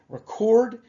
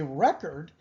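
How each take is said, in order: First: The stress is on the second syllable. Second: The stress is on the first syllable. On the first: It names the act of recording. "Record is an activity" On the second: It names the result of recording. "now it implies the result of that process"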